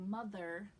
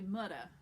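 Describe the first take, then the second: First: The middle consonant is a th sound. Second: The middle consonant is a d sound. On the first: "instead of saying mother with a th sound" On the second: "they say mudda"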